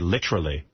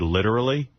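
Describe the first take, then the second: First: It is said in a put-on British-sounding accent. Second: It is said in a plain, normal accent. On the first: The person is affecting a British manner. "they're trying to be British, and it's so fucking obnoxious" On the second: This is the ordinary way to say the word. "instead of saying the word literally"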